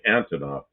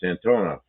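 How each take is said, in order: First: The stress is on the first syllable. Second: The stress is on the middle syllable. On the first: The speaker calls it wrong. "People say Antonov. It's not" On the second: The speaker calls it right. "It's Antonov"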